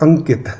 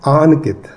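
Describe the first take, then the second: First: The first vowel is short. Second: The first vowel is long. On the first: This is the older form of the name. "पुराने जमाने में ये नाम होता था अंकित" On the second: This matches a name spelled with a double A. "डबल A है आपके नाम में... प्रोनाउंसिएशन वैसे ही फिर करनी चाहिए"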